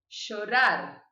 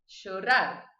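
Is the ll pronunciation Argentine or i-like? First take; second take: Argentine; Argentine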